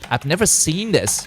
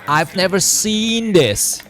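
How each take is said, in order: First: The voice rises at the end like a question. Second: It is said slowly and drawn out, relaxed. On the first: The speaker is asking in disbelief. "a kind of a raising intonation, like a question mark" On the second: The speaker is calmly amazed. "a bit like of a slow out, you know, kind of chilling effect"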